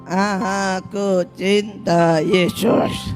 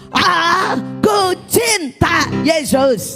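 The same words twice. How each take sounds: First: It is said flatly, without expression. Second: It is shouted loudly and expressively.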